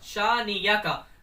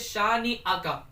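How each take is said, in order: First: A y sound is used in the middle. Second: A glottal stop is used in the middle. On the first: The speaker calls it wrong. "हमजा को या बना देते हैं" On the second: The speaker calls it right. "यहाँ पर हमजा पढ़ना है"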